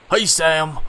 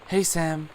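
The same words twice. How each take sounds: First: It is said in a put-on butch voice. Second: It is said in a normal voice.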